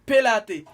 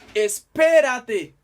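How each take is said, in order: First: The opening 'es' syllable is left off. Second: The opening 'es' syllable is clearly said. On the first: The speaker calls it wrong. "gen moun ki di pelate. C'est pas pelate" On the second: The speaker calls it right. "c'est espérate"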